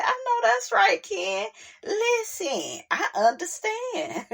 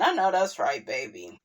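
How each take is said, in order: First: High, tearful mock sobbing into a laugh; mock emotional cry. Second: Said in the usual way. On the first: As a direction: gush like you're moved to tears, half joking. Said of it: "I said".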